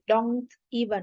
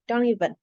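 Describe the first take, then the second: First: The t in don't is clearly pronounced. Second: The t is dropped and n links onward. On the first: The speaker calls it wrong. "We don't say don't even" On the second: The speaker calls it right. "we say don't even, ... it is common to just pronounce the "n""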